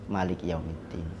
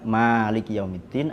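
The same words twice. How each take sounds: First: The first vowel of Maliki is short. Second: The first vowel of Maliki is long. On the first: "ada yang pendek" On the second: "Ada yang panjang"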